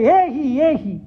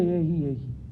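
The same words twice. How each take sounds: First: It is said with warm, expressive calling intonation. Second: It is said flatly, without expressive intonation. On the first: The speaker calls it right. "You should say ... that intonation" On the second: The speaker calls it wrong. "you shouldn't say"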